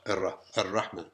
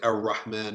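First: The r is a single quick tongue tap. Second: The r is a hard English-style r. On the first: The speaker calls it right. "touching of the top of the tongue with the roof of the mouth and releasing some air" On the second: The speaker calls it wrong. "neither the hard R of English, like R. We don't say R. Like we don't say Ar-Rahman"

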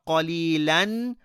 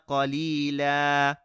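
First: The word ends with an n sound. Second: The word ends with a long a vowel. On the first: The speaker calls it wrong. "Not قَلِيلًا" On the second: The speaker calls it right. "rather just إِلَّا قَلِيلًا"

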